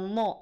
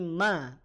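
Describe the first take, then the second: First: The vowel is thick and sounds like o. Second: The vowel is thin and sounds like a. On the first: The speaker calls it wrong. "Maghdu tidak mo" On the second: The speaker calls it right. "tapi ma"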